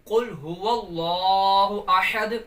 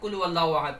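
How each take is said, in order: First: It is recited slowly, with each sound clear. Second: It is recited quickly, with sounds run together. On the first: The speaker calls it right. "तो दुरुस्त इस तरीके से पढ़ेंगे" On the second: The speaker calls it wrong. "बाद इसको जल्दी पढ़ जाते हैं बस"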